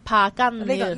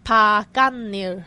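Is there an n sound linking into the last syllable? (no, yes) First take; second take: yes; yes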